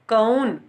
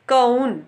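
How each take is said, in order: The two takes are said the same way.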